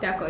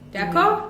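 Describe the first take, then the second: First: It is said as an answer, falling. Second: It is asked as a question, rising.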